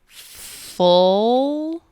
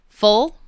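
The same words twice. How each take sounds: First: The word is drawn out very slowly. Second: The word is said at a normal speed. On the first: "then I will repeat each word very slowly" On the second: "I'm going to say each word normally first"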